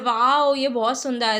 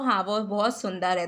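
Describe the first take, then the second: First: It is said with excited exclamation. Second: It is said in a plain, normal way.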